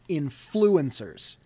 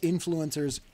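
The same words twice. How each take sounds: First: The word is pronounced in an odd way. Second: The word is pronounced in the usual way. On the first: The speaker calls it wrong. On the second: The speaker calls it right.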